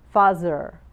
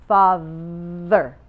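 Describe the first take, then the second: First: The middle consonant is a 'z' sound. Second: The middle consonant is a voiced 'th' sound. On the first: The speaker calls it wrong. "her TH becomes a Z" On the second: The speaker calls it right. "Sometimes the TH has a vibration"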